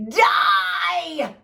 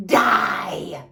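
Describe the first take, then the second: First: High, loud yell; angry fairy shouting louder at a deaf fairy; shouted. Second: Loud barked snap; angry fairy snapping a curse; snapped shout. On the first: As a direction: scream it in her deaf ear. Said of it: "shouted the garlicky one". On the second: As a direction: bite the word off hard. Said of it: "snapped Bibo". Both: Acted.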